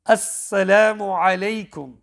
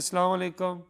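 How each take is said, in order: First: The words are full with every sound pronounced. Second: The words are clipped with sounds left out. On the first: The speaker calls it right. "when it's supposed to be" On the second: The speaker calls it wrong. "Half of the words they've not pronounced properly"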